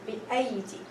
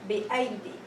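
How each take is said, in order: Both takes have the same delivery.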